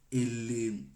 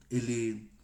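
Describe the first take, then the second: No difference in how they are said.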